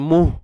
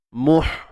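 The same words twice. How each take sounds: First: The final h is breathed through a relaxed throat. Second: The final h is breathed through a narrowed throat. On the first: The speaker calls it wrong. "Kalau tak sempit tu yang jadi muh" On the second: The speaker calls it right. "kita sempitkan bahagian tengah kerongkong kita"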